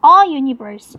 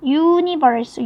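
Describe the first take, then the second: First: A universe said louder with the "a" punched; stress on A. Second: Universe said very slowly, starting clearly on "yu"; stressing the yu sound. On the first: Teacher correcting the article in front of universe, punching A. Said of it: "이렇게 해야 되겠죠". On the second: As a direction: stretch universe so the "yu" sound stands out. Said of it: "유라는 발음이죠". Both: Shown as a demonstration.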